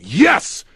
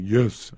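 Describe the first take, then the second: First: It is yelled loudly and strongly. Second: It is said quietly and weakly.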